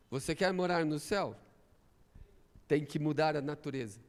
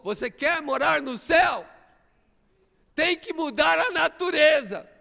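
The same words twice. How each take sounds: First: Quiet challenge. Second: Higher, louder, pressing the point; preacher raising the challenge louder; rising preacher's challenge. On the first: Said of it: "repeated challenge, first take". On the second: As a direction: call it out to the congregation. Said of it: "repeated challenge, second take". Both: Real, not acted.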